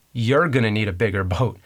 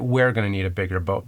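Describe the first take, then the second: First: You're pushed forward to the front of the line; stress on YOU'RE. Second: We're leaned on, lower and quicker; stress on WE'RE. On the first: Quoting Brody to Quint, with You're leaned on. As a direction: lean on You're, not on we. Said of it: "But actually, he says". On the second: Misremembered Jaws line, with We're leaned on. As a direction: hit We're as if it's all three of them. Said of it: "I would have said". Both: Retold or imitated.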